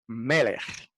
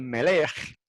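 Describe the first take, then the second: First: The stress is on the first syllable. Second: The stress is on the second syllable. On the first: The speaker calls it right. "siempre el acento va en el primero" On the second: The speaker calls it wrong. "no se dice melech"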